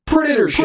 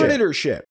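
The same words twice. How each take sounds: First: Hyped announcement. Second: Said in the usual way. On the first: Pretend.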